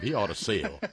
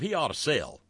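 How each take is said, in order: First: It is spoken with a Southern accent. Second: It is spoken without a Southern accent.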